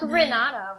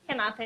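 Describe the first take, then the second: First: The name is said with American English pronunciation. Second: The name is said without American English pronunciation. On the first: The speaker calls it wrong. "like Renata, Renata, it's kind of weird" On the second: The speaker calls it right. "so Renata it is"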